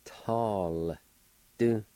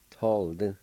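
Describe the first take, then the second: First: Tall, long with the L joined on, pause, then short Du; Tall... Du, two separate drawn-out beats; syllable by syllable. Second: Said in the usual way. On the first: Shown as a demonstration. Teacher joining L to T A, slow syllable by syllable. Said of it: "pronounce the L sound with the T A like this". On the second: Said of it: "like this".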